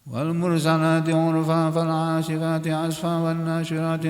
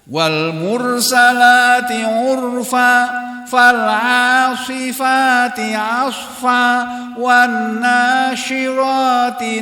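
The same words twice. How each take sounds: First: It is said casually with loosely articulated vowels. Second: It is said carefully with each vowel clearly opened. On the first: The recitation is treated carelessly. The speaker calls it wrong. "Itu namanya menyantaikan, menyepelekan" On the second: The recitation is treated seriously. The speaker calls it right. "Dibacanya harus benar, harus serius"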